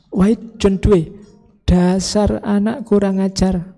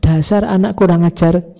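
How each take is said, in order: First: Makian tiruan seorang ayah. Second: Said in the usual way. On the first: Retold or imitated. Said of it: "awalnya maki-maki". (omelan ayah yang ditirukan, pelan dan bernada tinggi) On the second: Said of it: "terus belakangnya kan nggak jadi maki-maki".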